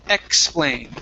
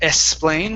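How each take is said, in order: First: The word begins with a K-S sound. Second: The word begins with only an S sound. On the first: The speaker calls it right. "this is a K S sound" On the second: The speaker calls it wrong. "with an S only"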